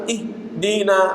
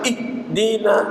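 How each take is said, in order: The two takes are said the same way.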